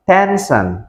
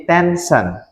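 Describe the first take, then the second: First: Tension said as ensan, first sound dropped; wrong pronunciation. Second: Tension said slowly as tensan with a clear t; correct pronunciation. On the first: Teacher showing students the wrong way to say tension. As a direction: demonstrate the mistaken tension. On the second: Teacher correcting students, modelling tension slowly. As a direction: give the right tension, slow and careful. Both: Shown as a demonstration. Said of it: "bukan tension, tapi tension".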